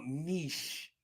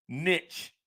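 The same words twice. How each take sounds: First: Niche said as "neesh", long ee and soft sh; corrected niche. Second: Niche said as "nitch", rhymes with itch; "niche" with a short i and hard ch; Jersey way: "niche" like "nitch". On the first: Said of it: "my people from Connecticut are correcting me". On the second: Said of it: "I say niche". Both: Shown as a demonstration.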